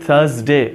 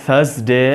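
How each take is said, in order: The two takes are said the same way.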